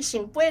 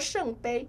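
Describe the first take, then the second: First: The word is pronounced in Taiwanese. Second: The word is pronounced in Mandarin. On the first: The word carries strong emotion. The speaker calls it right. "醒杯如果不用台语讲了的话，就不好玩了" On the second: The word carries no emotion. The speaker calls it wrong. "如果我们说圣杯，好像感觉……没有情绪"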